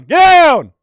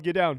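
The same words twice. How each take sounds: First: A full-force yell, much higher and louder; shouted command. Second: Said in the usual way. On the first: Retold or imitated. Officer ordering inmates to the ground, yelled command. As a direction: bark the order like a prison officer. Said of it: "I almost proned out when you yelled". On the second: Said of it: "when you yelled".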